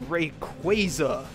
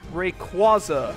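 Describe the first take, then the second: First: The middle syllable sounds like the start of 'quasar'. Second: The middle syllable does not sound like 'quasar'. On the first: This is the official pronunciation. The speaker calls it right. "it's a combination of Ray and Quasar" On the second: This is the fan pronunciation. The speaker calls it wrong. "a pronunciation that sounds stupid"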